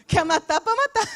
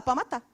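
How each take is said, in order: First: High laughing pitch of mock permission. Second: Said in the usual way. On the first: Joking to the congregation, laughing. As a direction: toss it off through a laugh. Preacher joking he'd let God kill.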